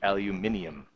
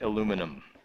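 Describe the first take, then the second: First: The word is said the European way. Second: The word is said the American way. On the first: The speaker calls it wrong. "which just sounds wrong. ... It's a European thing" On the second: The speaker calls it right. "I am going to continue to say it aluminum"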